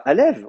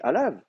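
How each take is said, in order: First: The final vowel sounds like 'e'. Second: The final vowel sounds like 'a'. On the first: The speaker calls it wrong. "On dit pas Alev" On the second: The speaker calls it right. "on dit Alav"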